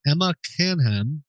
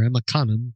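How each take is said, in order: First: "Canham" as CAN-ham, both syllables sounded; "Canham" pronounced like can plus ham; first name pronunciation. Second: "Canham" as KAH-nun, second syllable reduced; "Canham" pronounced KAH-nun, weak ending; alternative name pronunciation. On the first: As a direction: say "Canham" with a flat A as in can, then a clear "ham". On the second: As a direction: say "Canham" with an open AH and a silent H. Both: Shown as a demonstration. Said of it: "Sorry if I'm mispronouncing your name".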